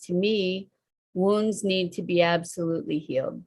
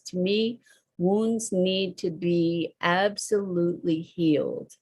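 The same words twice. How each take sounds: First: It is read plainly, with little emphasis. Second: It is read with stronger, clearer emphasis. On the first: The speaker calls it wrong. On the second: The speaker calls it right.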